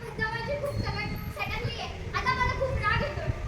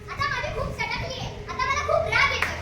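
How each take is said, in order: First: It is said in a crying voice. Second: It is said in an angry voice.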